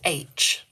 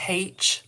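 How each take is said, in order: First: The letter name starts without an h sound. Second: The letter name starts with an h sound. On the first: This is the expected standard way. "you're meant to say it H. You're not meant to add the H" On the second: This is how it is said locally. "I say it with a H"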